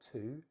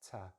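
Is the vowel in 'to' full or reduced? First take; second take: full; reduced. First: The word has a full vowel. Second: The word has a weak schwa vowel. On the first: The speaker calls it wrong. "not to" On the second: The speaker calls it right. "I'm using the schwa"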